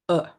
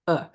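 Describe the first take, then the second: The two takes are said the same way.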